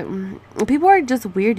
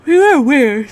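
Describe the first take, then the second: First: Said in the usual way. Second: Yawned through the words; yawning. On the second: Real, not acted. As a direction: say it mid-yawn. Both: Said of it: "Sorry, I just yawned".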